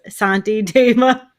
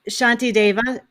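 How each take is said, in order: First: The name begins with an s sound. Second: The name begins with a sh sound. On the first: The speaker calls it wrong. "I think last time I called it, I said uh" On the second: The speaker calls it right. "Did I say it right this time?"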